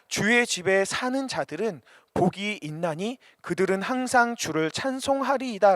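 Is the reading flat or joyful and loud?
flat. It is read flatly, without any emotion. The words are read without being felt. The speaker calls it wrong. "그냥 ... 아무런 감격이 없이 읽으면 안 됩니다"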